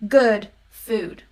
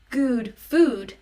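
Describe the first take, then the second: First: The two words use different vowel sounds. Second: Both words use the same vowel sound. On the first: The speaker calls it right. "it's good food" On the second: The speaker calls it wrong. "It's not good food"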